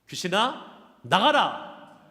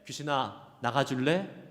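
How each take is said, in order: First: It is said loudly as a firm command. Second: It is said gently as a polite request.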